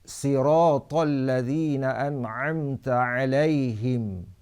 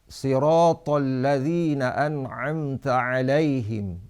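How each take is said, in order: The two takes are said the same way.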